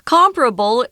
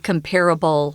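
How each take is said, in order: First: The stress is on the first syllable. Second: The stress is on the second syllable. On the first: "comparable is really the best way to pronounce this word" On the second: "you will hear some people say comparable"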